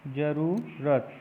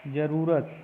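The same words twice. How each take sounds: First: जरूरत slowly split as "ja-ruu... rat"; जरूरत sounded out with a long u; long vowel demo. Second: Said in the usual way. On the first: Shown as a demonstration. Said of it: "रपर बड़ाओं को होता है". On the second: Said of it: "ये वाला सही होगा".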